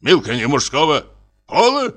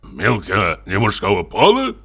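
First: Пола shot up high in disbelief; Милка не мужского пола? as if the idea is absurd; mock-indignant disbelief; incredulous outrage. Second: Amazed. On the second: Acted. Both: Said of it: "изумился поручик".

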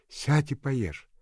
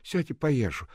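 First: Higher, slow, urging to eat; coaxing nurse. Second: Higher voice, urging to eat; coaxing nurse. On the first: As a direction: coax her gently to eat. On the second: Nurse telling Nadenka to eat, coaxing. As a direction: tell her to sit and eat. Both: A narrator's reading.

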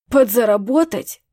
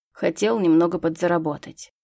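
First: Louder, choking with indignation; outraged echo. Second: Said in the usual way. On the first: A narrator's reading. Vincent outraged at his worker's excuse, indignant. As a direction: throw the word back, appalled. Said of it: "задохнулся от возмущения Винсент Коди".

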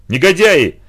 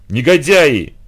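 First: Loud, higher outraged yell; angry shout. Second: Louder cry near tears; despairing exclamation. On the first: Boy drenched with water, shouting at the boxers. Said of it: "закричал я". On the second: Boy seeing the broken cello, crying out in despair. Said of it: "воскликнул я в отчаянии". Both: A narrator's reading.

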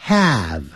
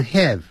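First: "have" said with the a of cat; have with short a. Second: "have" said wrongly like heh; the vowel of "have" flattened to eh. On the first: 老师示范have的正确a音. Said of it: "记住have发a的音". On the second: 老师示范错误的have读法. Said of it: "所以不要念成have". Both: Shown as a demonstration.

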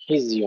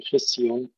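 First: خزي with a fully voiced z; clear zay. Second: خزي said with an s in place of the z; zay turned to sin. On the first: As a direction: buzz the ز in خزي, never an s. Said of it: "حرف الزاي". (خزي بزاي واضحة) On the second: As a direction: devoice the ز of خزي into س. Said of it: "ألا يتحول إلى سين". (خزي بسين بدل الزاي) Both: Shown as a demonstration.

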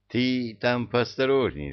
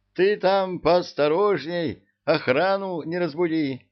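First: Said in the usual way. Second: High, loud warning call. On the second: A narrator's reading.

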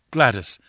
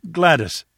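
First: Calling her name, barely raised; a first, held-back call; mild cry. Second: Called out higher and louder; the second call rings out; pushing the name out with urgency; louder cry. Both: Acted. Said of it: "I cried".

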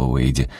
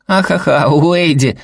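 First: Said in the usual way. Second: Put-on high, laughing kid's voice; little boy cracking up; giggling child. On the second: A narrator's reading. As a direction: giggle at dad's nickname. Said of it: "хихикнул Сэл".

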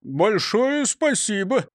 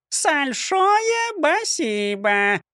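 First: Said in the usual way. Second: Parrot chirp. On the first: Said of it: "вежливо поблагодарил Крендель". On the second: A narrator's reading. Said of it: "прощебетала Клара".

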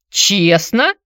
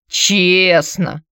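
First: Higher, louder questioning rise on "Честно"; incredulous. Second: "Честно" drawn out slowly in a mock echo; mocking mimic. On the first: Anatoly doubting how Antonina got the money, incredulous. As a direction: ask "Честно" in disbelief. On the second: Anatoly mocking Antonina's word, sneering mimic. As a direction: parrot back "Честно" with scorn. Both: A narrator's reading. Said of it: "передразнил он".

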